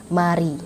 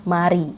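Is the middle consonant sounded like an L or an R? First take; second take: R; R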